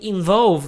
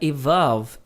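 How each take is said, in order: First: The word begins with an 'in' sound. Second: The word begins with an 'e' sound. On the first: The speaker calls it wrong. "Eu falei involve, mas não era involve" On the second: The speaker calls it right. "Era evolve"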